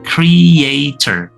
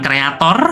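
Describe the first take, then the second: First: It is pronounced with English-style sounds. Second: It is pronounced with Indonesian-style sounds. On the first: The speaker calls it right. "but content creator" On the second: The speaker calls it wrong. "Jadi bukan kreator"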